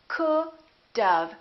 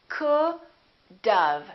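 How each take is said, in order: Both takes have the same delivery.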